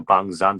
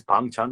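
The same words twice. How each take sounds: First: "Bang Zan" with Z opening the second word; name with Z. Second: "Bang Chan" with CH opening the second word; name with CH. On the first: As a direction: contrast "Bang Zan" using a Z, not CH. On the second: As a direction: contrast "Bang Chan" using a CH, not Z. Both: Shown as a demonstration. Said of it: "So what is the typo?".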